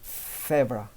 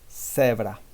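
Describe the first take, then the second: First: The first consonant sounds like a th. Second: The first consonant sounds like an s. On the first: This is how speakers from Spain say it. "Spanish speakers from Spain, they do have a big difference with a Z" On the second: This is how Latin Americans say it. "This one sounds pretty much the same as the S. Uh, in Latin American"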